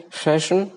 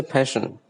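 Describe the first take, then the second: First: "fashion" begun with an English f; correct f sound. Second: "fashion" begun with an aspirated p. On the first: Teacher giving the intended form, f at the start of "fashion". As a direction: let air hiss through the f of "fashion". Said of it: "instead of saying fashion". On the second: Teacher showing what learners say, puffed p in "fashion". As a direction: say "fashion" as phashion, both lips closing first. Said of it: "you will say fashion". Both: Shown as a demonstration.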